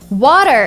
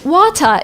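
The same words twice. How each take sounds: First: The t is a soft d-like flap. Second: The t is a clear t sound. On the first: "is what Americans say" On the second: "it would be British"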